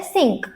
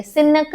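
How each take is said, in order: First: सिंक as one syllable with a brief ng; correct short nasal. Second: सिनक with a full vowel between न and क; wrong split pronunciation. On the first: Teacher shows the small sound, one-syllable सिंक. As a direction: say सिंक joined, the न shrunk into a nasal. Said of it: "छोटा sound होता है". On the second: Teacher shows what we don't say, wrong two-syllable सिनक. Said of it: "सिनक नहीं बोलते". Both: Shown as a demonstration.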